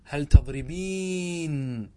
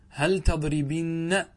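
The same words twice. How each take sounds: First: "تضربين" with a very long ee; slow demo of "تضربين", long ee into n; original form. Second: "تضربن" with short i and held doubled n; drawn-out demo of "تضربن", short i before nn; form with ya deleted. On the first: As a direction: stretch the ending of "تضربين" as -beeen. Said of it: "أصله". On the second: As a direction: say "تضربن" slowly, ending -binna. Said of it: "حذفت". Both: Shown as a demonstration.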